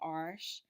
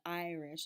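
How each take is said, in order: First: It collapses into one syllable like arsh. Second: The first syllable keeps its full vowel. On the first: "the R collapsing" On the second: "instead of"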